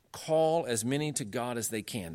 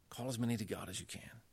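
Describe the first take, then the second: First: Said in the usual way. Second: Near-whispered, savoring the quote; hushed repeat. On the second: Retold or imitated. Lecturer repeating Calvin's language to his audience, hushed. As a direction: drop to a soft, intimate whisper.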